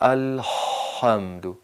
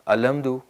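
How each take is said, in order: First: The h is squeezed tightly from the throat. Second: The h is a plain, ordinary breathy sound. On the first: The speaker calls it right. "यहाँ से हलक की दीवारें सिकुड़ना ज़रूरी" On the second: The speaker calls it wrong. "अलहम्दु नहीं पढ़ना, हाय दो चश्म के साथ"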